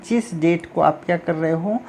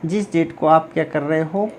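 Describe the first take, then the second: No difference in how they are said.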